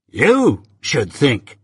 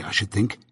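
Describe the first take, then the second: First: "You should think" drawled very slowly, leaning on You; a surly lout mimicking his rival; mocking echo. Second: Said in the usual way. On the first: A narrator's reading. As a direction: sneer the words back at him, slow and scornful. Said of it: "retorted Drummle". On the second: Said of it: "said I".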